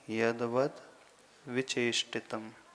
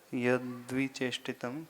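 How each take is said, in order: First: The syllable 'vat' is clearly pronounced. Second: The syllable 'vat' is merged away. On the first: This is the original form. "पर मूल में" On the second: This is how it appears in writing. "वो लिखा ऐसा है थोड़ा सा"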